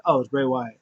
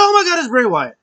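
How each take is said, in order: First: Said in the usual way. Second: High, loud retold amazement; hammed-up high exclamation; excited reaction. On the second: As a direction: act out a startled fan spotting someone. Second, excited take of reaction.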